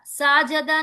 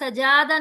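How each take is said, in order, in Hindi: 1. पहला स्वर लंबा खींचा गया है। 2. दूसरा स्वर लंबा खींचा गया है। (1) "साजदा नहीं पढ़ना" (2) "सजादा नहीं पढ़ना"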